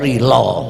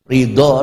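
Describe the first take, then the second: First: The word has a plain 'l' in that place. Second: The word has the Arabic emphatic 'dad' consonant.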